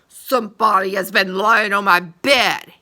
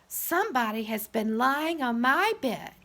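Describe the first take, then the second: First: It is said in a big, gruff voice. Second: It is said in a middle-sized voice.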